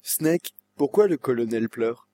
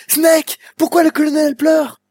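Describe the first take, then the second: First: Said in the usual way. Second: Much higher, louder, pleading cry of Snake's name; more feeling in the voice. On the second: Shown as a demonstration. Dubber retakes the line with far more feeling, pitched much higher. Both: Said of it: "un peu plus de sentiment dans la voix".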